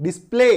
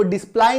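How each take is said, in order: First: डिस्प्ले said "dis-play", rhyming with "day"; correct pronunciation. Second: डिस्प्ले misread as "dis-plai", rhyming with "pie"; wrong pronunciation. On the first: Teacher corrects the misreading, डिस्प्ले as "dis-play". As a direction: close डिस्प्ले on "ay", no "eye" sound. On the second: Teacher shows what we don't read, डिस्प्ले as "dis-plai". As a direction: give डिस्प्ले an "eye" ending. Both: Shown as a demonstration. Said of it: "इसको डिस्प्ले नहीं प".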